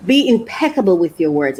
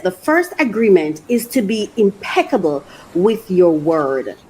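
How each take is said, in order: First: Said in the usual way. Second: Reading aloud. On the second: Acted. Reading the book's words to viewers, measured. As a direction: read the quote out, steady and measured. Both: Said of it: "It says".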